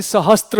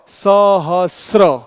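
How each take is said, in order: First: सहस्त्र said as sa-ha-stra, with an added t; सहस्त्र, the mistaken stra ending; wrong pronunciation. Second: सहस्र drawn out slowly as sa-ha-sra, no t; सहस्र, each syllable stretched, ending in sra; correct pronunciation. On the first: Teacher to students, contrasting the wrong form with t. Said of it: "न कि सहस्त्र होगा". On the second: Teacher to students, demonstrating the right pronunciation slowly. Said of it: "इसका सही उच्चारण क्या होगा". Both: Shown as a demonstration.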